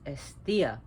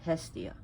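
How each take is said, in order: First: The name starts with a vowel, no H sound. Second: The name starts with an audible H sound. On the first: The speaker calls it right. "The H is not pronounced. It's Esthea" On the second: The speaker calls it wrong. "not Hestia"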